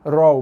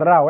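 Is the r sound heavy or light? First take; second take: heavy; light. First: The r sounds thick and rounded. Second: The r sounds thin and light. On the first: The speaker calls it right. "So ra raw" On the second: The speaker calls it wrong. "bukan raw"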